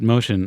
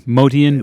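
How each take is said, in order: First: The name sounds like the English word motion. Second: The name is said differently, in an Armenian way. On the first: This is how the bearer himself said it. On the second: This is the original form of the name.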